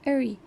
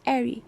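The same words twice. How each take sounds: First: "airy" as the General American suffix. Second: "airy" as the Received Pronunciation suffix; British suffix. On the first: Lecturer contrasting suffixes, American pronunciation. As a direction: say "airy" as Americans end such words. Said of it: "in G A, suffix airy is pronounced as". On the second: Lecturer contrasting suffixes, British RP pronunciation. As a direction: say "airy" as RP speakers end such words. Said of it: "whereas in R P, pronunciation is airy". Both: Shown as a demonstration.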